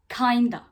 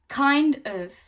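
First: Of is reduced to a short 'a' sound. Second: Of is said as a full separate word.

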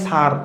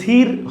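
First: The vowel is like the e in her. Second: The vowel is like the i in hit. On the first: The speaker calls it right. "উচ্চারণ হয় সার" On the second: The speaker calls it wrong. "উচ্চারণ কিন্তু সির হয় না"

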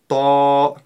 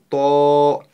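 First: The vowel is said with unrounded lips, mouth open. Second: The vowel is said with rounded lips, like o. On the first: The speaker calls it right. "Мы всего лишь открываем рот" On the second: The speaker calls it wrong. "Ни в коем случае не стоит удлинять губы и произносить ее ТО через О"

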